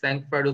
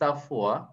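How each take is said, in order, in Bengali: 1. এতে একটি স্পষ্ট ng আছে এবং শেষে d আছে। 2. এতে একটি নাসিক্য স্বরধ্বনি আছে, শেষে কোনো d নেই। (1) "অনেকে স্যাংফ্রয়েড উচ্চারণ করে" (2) "আসলে প্রকৃত উচ্চারণ হচ্ছে সাফোয়া"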